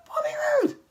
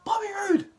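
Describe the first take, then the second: First: "Bobby Roode" cried out high in disbelief; a high, pained yell of "Bobby Roode"; exasperated cry. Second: Said in the usual way. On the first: Real, not acted. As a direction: wail the name in frustration. Rants about Bobby Roode's booking.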